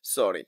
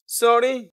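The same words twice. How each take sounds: First: Low "সরি" dropping down; falling apology. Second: "সরি" higher and louder, lifting like a question; rising, louder "সরি" as if asking; questioning sorry. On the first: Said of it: "দুঃখ প্রকাশ করার জন্য বলছেন". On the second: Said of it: "এটা questions করছেন". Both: Shown as a demonstration.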